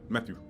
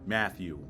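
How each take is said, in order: First: The vowels are dropped, leaving mostly consonants. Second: The vowels are clearly sounded in full. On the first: "You take the A and the E out, you got Matthew" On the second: "The emphasis uh, audibly is on the A and the E"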